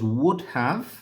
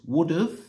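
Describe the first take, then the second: First: Both words are said fully and separately. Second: The words are joined with a short 've' ending.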